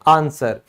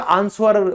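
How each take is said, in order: First: The w sound is silent in the word. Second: A w sound is pronounced in the word. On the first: The speaker calls it right. "आप कहोगे आंसर" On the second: The speaker calls it wrong. "कई बच्चे इसको school में हमेशा आंसर"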